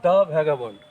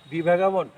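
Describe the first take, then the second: First: "the" said thuh before "vagabond", short and firm; teacher's right form, thuh vagabond. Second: "the" said thee before "vagabond", as a questioned wrong form; mock wrong "thee vagabond". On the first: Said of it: "এখানে উচ্চারণ হবে". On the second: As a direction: ask it with "the" as thee. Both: Shown as a demonstration.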